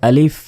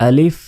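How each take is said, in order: The two takes are said the same way.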